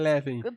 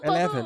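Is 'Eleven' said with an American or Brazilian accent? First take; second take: Brazilian; American. First: It is said with a Brazilian Portuguese accent. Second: It is said with an American English accent. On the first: "não fala igual nós que é Eleven" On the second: "ele fala bem gringo"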